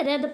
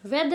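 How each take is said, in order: First: रेद starting on R; silent W. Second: वेद starting with a W sound; wrong pronunciation. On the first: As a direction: leave the W out of रेद. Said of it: "रेद पढ़ते हैं". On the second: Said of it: "वेद नहीं पढ़ते". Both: Shown as a demonstration.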